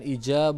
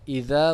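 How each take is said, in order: First: The middle consonant is a j sound. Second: The middle consonant is a soft voiced th sound. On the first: The speaker calls it wrong. "bukan ija" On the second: The speaker calls it right. "ingat idza"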